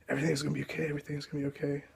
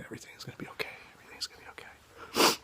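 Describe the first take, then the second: First: Softer and higher, gently reassuring; hushed comfort for someone scared; soft reassurance. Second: Full whisper, soothing and hushed. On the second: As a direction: whisper it beside a frightened patient's bed. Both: Retold or imitated.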